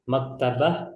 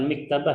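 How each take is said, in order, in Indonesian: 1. Vokal pertama adalah bunyi 'a' terbuka. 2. Vokal pertama adalah bunyi 'i' tertutup. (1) "Maktabah bukan miktabah" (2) "bukan miktabah"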